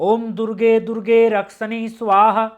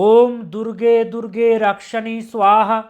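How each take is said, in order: The two takes are said the same way.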